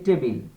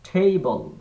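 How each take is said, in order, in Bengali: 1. T ধ্বনিটি আনঅ্যাসপিরেটেড, এতে বাতাসের ফুঁ থাকে না। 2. T ধ্বনিটি অ্যাসপিরেটেড, এতে বাতাসের ফুঁ থাকে। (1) "যেমন আমরা বলি টেবিল, ট দিয়ে" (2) "শুদ্ধ উচ্চারণটা এভাবে হবে"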